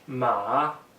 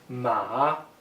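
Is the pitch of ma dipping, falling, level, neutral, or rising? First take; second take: dipping; dipping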